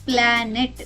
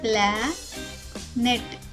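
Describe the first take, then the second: First: The two syllables are said smoothly together. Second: The two syllables are said with a break. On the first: "రెండు ముక్కలను ఒక్కటిగా చెప్పాలి, విరవకుండా" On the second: "కాబట్టి ఈ పదం అవుతుంది"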